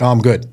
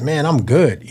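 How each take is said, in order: First: Dismissive "I'm good", handed off quickly; brushing it off. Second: Easy, more heartfelt "I'm good"; genuinely fine tone. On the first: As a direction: fob them off with a casual reply. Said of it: "then you just hand it off". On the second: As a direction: let the tone say you really are fine. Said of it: "Just that in the tone makes". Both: Acted.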